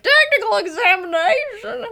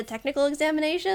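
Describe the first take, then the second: First: High, loud wailing disbelief; mock panic. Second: Said in the usual way. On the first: Forgers learn of the examination, high loud mock-panicked wail. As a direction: shriek it back in comic horror. Forgers' horrified echo of the question.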